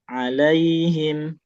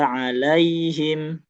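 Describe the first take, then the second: Both takes have the same delivery.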